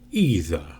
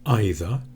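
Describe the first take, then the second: First: The first vowel is a long E. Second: The first vowel is not a long E. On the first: "the E is quite long" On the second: "number one"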